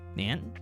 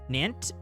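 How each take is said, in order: First: The word ends without a T sound. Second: The word ends with a hard T sound.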